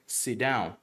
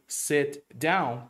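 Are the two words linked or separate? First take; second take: linked; separate. First: The two words run together as one. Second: The two words are said separately.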